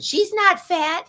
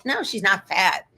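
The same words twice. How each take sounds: First: Slow, higher mock of her husband; imitating a husband defending the dog; lightly mocking husband, slow and higher. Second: Said in the usual way. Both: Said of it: "You sound like my husband".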